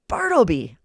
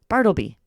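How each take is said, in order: First: It is roared very loudly. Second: It is called at a normal volume.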